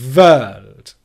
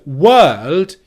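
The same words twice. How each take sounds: First: It starts with lip on teeth, a V sound. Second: It starts with rounded lips, a W sound. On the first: The speaker calls it wrong. "you get world" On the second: The speaker calls it right. "instead of world"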